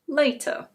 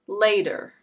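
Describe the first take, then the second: First: It has a crisp British t sound. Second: It has an American flapped d-like t. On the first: "In British English" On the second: "In American English"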